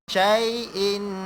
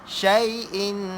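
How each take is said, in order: No difference in how they are said.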